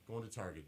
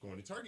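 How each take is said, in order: First: It is said lower and relaxed. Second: It is said high-pitched and eager. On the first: The listener is free to decline. "the latter tone, which gives us the easy out" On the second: The speaker really wants company. "if you're up here"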